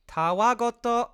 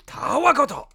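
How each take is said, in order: First: Robotic text-to-speech read; flat, slow translator voice; monotone voice. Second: Loud, high Japanese bad guy; villain voice. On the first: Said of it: "it says in a monotone voice". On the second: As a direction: bark it like an anime villain. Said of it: "the bad guys goes". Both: Shown as a demonstration.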